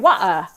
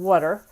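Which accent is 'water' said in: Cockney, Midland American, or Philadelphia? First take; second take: Cockney; Philadelphia. First: It is said in a Cockney accent. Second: It is said in a Philadelphia accent. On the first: "If you're a Cockney, you say wah" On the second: "however a true Philly accent would say it"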